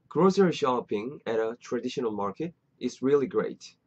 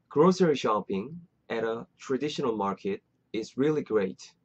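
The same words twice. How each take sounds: No difference in how they are said.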